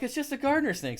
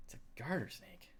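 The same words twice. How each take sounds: First: Calling out that it's only a snake; exasperated reassurance. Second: Whispered in quiet disbelief. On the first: Hiker holding a snake calls to the screaming women, exasperated and high. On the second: Hiker, recalling the women's wide eyes, whispers in disbelief. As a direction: breathe it out, voiceless and amazed. Retelling reaction, voice drops away. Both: Retold or imitated.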